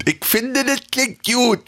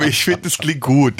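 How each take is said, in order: First: High, lisping Berlin take; slushy lisp. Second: Said in the usual way. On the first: Shown as a demonstration. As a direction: pitch it up with a lisp. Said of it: "ein bisschen lispeln".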